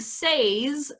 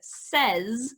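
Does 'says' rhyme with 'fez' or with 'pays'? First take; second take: pays; fez. First: The vowel is long, rhyming with 'pays'. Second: The vowel is short, rhyming with 'fez'. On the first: "instead of saying says" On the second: "we say the word says, at least in this part of the world"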